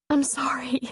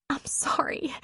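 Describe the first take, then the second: First: Hushed whisper, fighting tears; barely voiced apology, ashamed. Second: A soft, ashamed whispered apology. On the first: She apologises, composing herself. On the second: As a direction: breathe it out, barely voiced. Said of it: "she whispered". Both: A narrator's reading.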